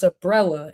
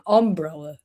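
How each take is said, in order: First: UMBRELLA with a light, short first syllable; ordinary pronunciation. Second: UMBRELLA with a full, weighted UM; habitual odd pronunciation. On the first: Contrasting with their own habit, light pronunciation. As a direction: say "umbrella" with the UM barely there. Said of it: "It's not just umbrella". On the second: Showing the way they catch themselves, weighted pronunciation. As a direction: lean on the first syllable of "umbrella". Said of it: "I catch myself saying umbrella". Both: Shown as a demonstration.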